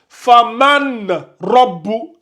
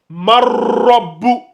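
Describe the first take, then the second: First: The n is pronounced clearly before the r. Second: The n vanishes into a doubled, strengthened r. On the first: The speaker calls it wrong. "ils vont prononcer clairement le man là ... Là aussi c'est faux" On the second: The speaker calls it right. "le noun là, il disparaît ... tu dois le renforcer"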